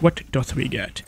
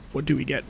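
First: Put-on "dot" said as old-fashioned "doth"; mock-archaic wording. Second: Said in the usual way. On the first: Streamer asking about loot, "dot" pronounced like archaic "doth".

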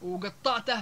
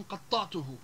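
First: وقطعته as u-gettateh, hard g; Libyan g. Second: Said in the usual way. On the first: Shown as a demonstration. Teacher giving another example, وقطعته with Libyan g. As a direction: say وقطعته with g for q and dialect ending. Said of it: "الجاء بدل القاء". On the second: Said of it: "بدل من قطعته".

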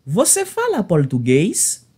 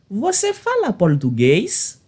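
The two takes are said the same way.

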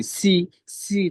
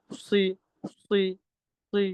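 First: সি said slow, light and crisp like sin; wrong light si. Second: সি made thick and heavy in the mouth. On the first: Teacher showing the class the wrong light sound. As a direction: stretch সি out thin and clear, the wrong way. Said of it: "সিনের মতো যদি স্পষ্ট করি". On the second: Teacher showing the class the correct heavy sound. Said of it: "এরকম মোটা". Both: Shown as a demonstration.

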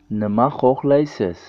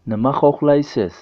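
Both takes have the same delivery.

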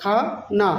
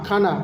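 First: "খা - না" as two separate beats; teacher sounding out "খা", "না"; broken into syllables. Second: Said in the usual way. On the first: Shown as a demonstration. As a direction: split "খানা" after "খা". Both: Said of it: "খাবারকে বলবো".

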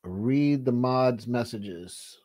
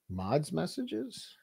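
First: Said in the usual way. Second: Drawn-out, higher and much softer questioning repeat; mock slow echo. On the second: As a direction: stretch it out as a teasing echo. Echoing the request mockingly.

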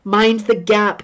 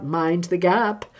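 First: Said in the usual way. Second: Slow, hushed Tube announcer voice; eerie disembodied station announcement; haunting voice. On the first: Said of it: "Can you hear the voice on the London Underground?". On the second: Retold or imitated. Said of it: "the haunting, disembodied voice".

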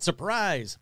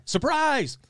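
First: Said in the usual way. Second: Big excited reveal; surprise reveal. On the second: Shown as a demonstration. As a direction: shout surprise with a flourish. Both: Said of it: "oh, sorry, surprise!".

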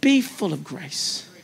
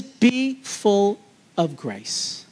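First: Softer and slower; soft slow repeat. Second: Slow, weighted delivery; slow emphatic. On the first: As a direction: repeat it gently, slowly. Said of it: "be full of grace when you do it". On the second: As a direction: lay each word down slowly. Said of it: "and this is". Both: Shown as a demonstration.

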